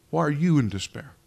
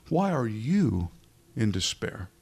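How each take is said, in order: First: "you" in "Why are you in despair?" punched louder with a rise; stress on you. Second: Slow, drawn out. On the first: Preacher pressing the question home on the listener. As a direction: lean hard on "you". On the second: Preacher slowly asking the congregation's soul a question. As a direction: stretch out "Why are you in despair?". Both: Shown as a demonstration. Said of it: "Let me stress that a little bit".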